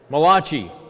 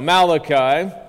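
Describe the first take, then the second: First: The name is said with an Italian-sounding pronunciation. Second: The name is said with a plain English pronunciation. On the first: The speaker calls it wrong. "the only Italian prophet, ... That's not how you pronounce it" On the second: The speaker calls it right.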